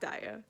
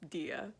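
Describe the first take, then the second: First: The name is said as Daya. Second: The name is said as Dia. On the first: The speaker calls it wrong. "not Daya" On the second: The speaker calls it right. "it's actually pronounced Dia"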